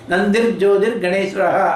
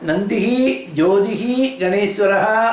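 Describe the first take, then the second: First: The words are joined, each ending in 'r'. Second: The words are separate, each ending in 'hi'. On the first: The words are read joined together in the verse. "அப்படிங்கிற வார்த்தையில் வருது" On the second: Each word is read on its own. "நந்திஹி ஒரு வார்த்தை"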